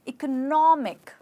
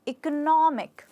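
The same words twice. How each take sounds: The two takes are said the same way.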